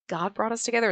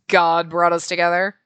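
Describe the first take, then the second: First: It is said lightly, without anger. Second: It is said seriously, with cold anger.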